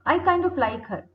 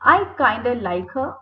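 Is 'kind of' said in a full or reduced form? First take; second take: full; reduced. First: 'Kind of' is said as two full words. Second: 'Kind of' is blended into one reduced word.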